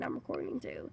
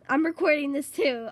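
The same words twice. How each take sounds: First: Hushed, near-unvoiced reply; sneaky aside to viewers; whispered aside. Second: Said in the usual way. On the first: Real, not acted. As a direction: whisper it back conspiratorially. Whispered aside after plain line.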